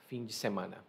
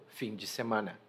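Both takes have the same delivery.

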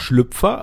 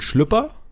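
First: It is said in standard German pronunciation. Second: It is said in a Berlin pronunciation. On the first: "also das Hochdeutsch ausgesprochene" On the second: "sagt man ja in Berlin"

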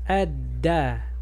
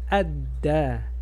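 Both takes have the same delivery.

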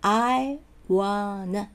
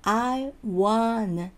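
No difference in how they are said.

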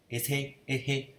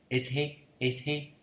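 The two takes are said the same way.

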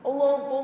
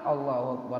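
First: It is shouted loudly. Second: It is said quietly, not loud.

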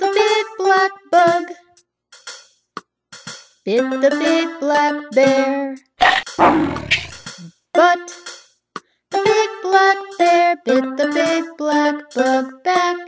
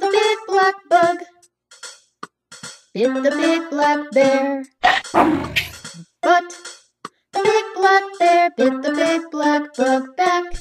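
First: It is said at a slower pace. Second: It is said at a faster pace.

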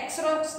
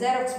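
First: The word begins with a ks sound. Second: The word begins with a z sound. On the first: The speaker calls it wrong. "एक्सरॉक्स नहीं बोलते हैं" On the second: The speaker calls it right. "ज़ेरॉक्स बोलते हैं"

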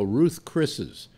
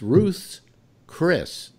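First: The name ends with an extra -es syllable. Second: The name ends plainly on the word Chris. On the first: The speaker calls it wrong. "They go Ruth's Chris's" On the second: The speaker calls it right. "but it's Ruth's Chris"

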